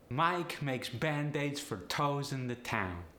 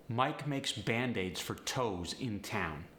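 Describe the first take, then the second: First: Higher, slow Polish accent. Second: Said in the usual way. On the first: Shown as a demonstration. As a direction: Polish accent with upward-lifted diphthongs. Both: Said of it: "upward inflection with these sentences".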